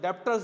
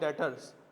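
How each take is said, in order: First: A b or p sound is heard mid-word. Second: No b or p sound is heard mid-word. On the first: The speaker calls it wrong. "एक बच्चा बोलेगा ये तो डेप्टर्स लिखा है" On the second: The speaker calls it right. "बी silent है, it's called डेटर्स"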